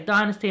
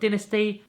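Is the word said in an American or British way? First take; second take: American; British. First: The word is said in an American way. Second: The word is said in a British way.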